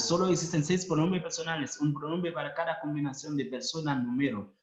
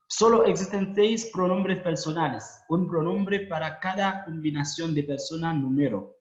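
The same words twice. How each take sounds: First: Fast reading. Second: Said in the usual way. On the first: Shown as a demonstration. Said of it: "lectura repetida rápida". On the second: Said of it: "lectura repetida".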